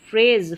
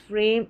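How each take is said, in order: First: फ्रेज read right, ending in z; फ्रेज with a clear z sound at the end; corrected word. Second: फ्रेम read by mistake, ending in m; फ्रेम said as frame, a slip of the tongue; misread word. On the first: (फ्रेज सही उच्चारण में, अंत में ज़) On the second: (फ्रेम गलती से पढ़ा गया) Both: Shown as a demonstration. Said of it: "फ्रेम नहीं है".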